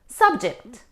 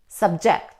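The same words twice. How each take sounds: First: The stress is on the first syllable. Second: The stress is on the second syllable. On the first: A topic or a person. "It's a noun. We stress on the first syllable" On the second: To bring people under control. "when we stress on the second syllable, we say subject"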